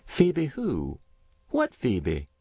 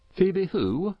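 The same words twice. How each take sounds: First: Put-on higher old farm wife, baffled; a woman who can't place the name; Matilda's confused reply; puzzled Mrs. Race. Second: Higher, questioning neighbour voice; a baffled farmer asks who he means; puzzled Farmer Dodge. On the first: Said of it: "replied Mrs. Race". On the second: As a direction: Dodge not placing the name. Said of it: "inquired Farmer Dodge". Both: A narrator's reading.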